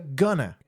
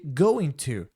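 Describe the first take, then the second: First: The words blur together quickly without the t. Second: Both words are said fully and separately.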